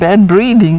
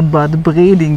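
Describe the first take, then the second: First: It is pronounced as the English words. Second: It is pronounced like a German spa-town name.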